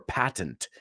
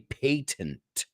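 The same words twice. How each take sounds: First: It is said with an American pronunciation. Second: It is said with a British pronunciation.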